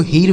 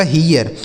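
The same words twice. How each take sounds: First: "हीर" as one long ee straight into r; wrong reading of hear. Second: "हीयर" with an ee-ya glide before r; correct reading of hear. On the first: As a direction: say "हीर" with no ya glide. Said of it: "हीर बिल्कुल नहीं पढ़ेंगे". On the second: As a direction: say "हीयर" in two syllables, hee-yar. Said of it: "तो यहाँ हो गया ईया". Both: Shown as a demonstration.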